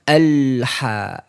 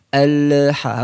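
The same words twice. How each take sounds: First: The L is held without release into ha. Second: The L is released with a bounce before ha. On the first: The speaker calls it right. "Harusnya bagaimana?" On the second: The speaker calls it wrong. "salahnya di situ"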